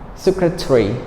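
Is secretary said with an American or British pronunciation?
British. The ending is squeezed into one short syllable. "if you speak in a British way"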